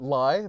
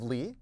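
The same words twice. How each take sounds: First: The name rhymes with 'eye'. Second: The name does not rhyme with 'eye'. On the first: The speaker calls it wrong. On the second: The speaker calls it right.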